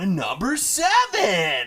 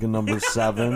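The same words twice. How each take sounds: First: The voice is very excited, with the most energy. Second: The voice is flat and monotone, with little energy. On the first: "just gets more over time" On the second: "start off like very monotone"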